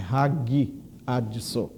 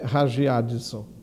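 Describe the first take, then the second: First: The g is pronounced hard and closed. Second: The g is pronounced soft, not closed. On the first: The speaker calls it right. "então é sempre fechado" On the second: The speaker calls it wrong. "Não é hagiadson"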